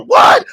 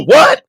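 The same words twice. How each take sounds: First: Far higher, loud startled what; an outraged high what; shocked what. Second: Mock-shocked what, higher and louder; a sudden startled what. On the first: Retold or imitated. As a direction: jump at the news. Other guy shocked. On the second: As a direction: play the stunned friend. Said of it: "And I go".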